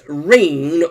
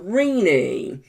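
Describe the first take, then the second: First: The name is said as one syllable, Reen. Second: The name is said as Reenie, ending in -ie. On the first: "I made a faux pas uh, where I was sort of pronouncing Renee as Reen" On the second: "or Reenie"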